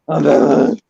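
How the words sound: The voice is rough and raspy like a smoker's. The speaker is faking a tough, gravelly hero voice. The speaker calls it wrong. "he didn't sound like he smoked like twelve packs of cigarettes"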